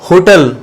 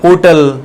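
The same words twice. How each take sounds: First: The initial h sound is pronounced. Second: The initial h sound is silent. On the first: This is how it is said nowadays. "आजकल इसको होटल" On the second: This is how it used to be said. "इसमें एच silent"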